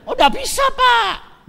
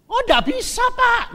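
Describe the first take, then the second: First: Much higher, much louder, a full shout; seller's shouted second no; shouted refusal. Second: Much higher and louder, a quick brush-off; seller's first raised no; high-pitched refusal. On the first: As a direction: shout the no right back at him. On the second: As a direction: turn him down in a high, loud voice. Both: Retold or imitated.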